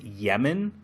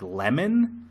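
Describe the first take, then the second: First: "Yemen" starting with a Y sound; "Yemen", Y glide at the front; show's pronunciation. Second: Said in the usual way. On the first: Shown as a demonstration. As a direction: say "Yemen" with Y in place of L. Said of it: "they pronounce it Yemen". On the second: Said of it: "it's spelled L E M O N".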